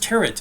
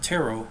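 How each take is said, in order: First: The final T is pronounced, like carrot. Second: The final T is silent at the end. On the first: The speaker calls it wrong. "He says tarot" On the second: The speaker calls it right. "the T is silent"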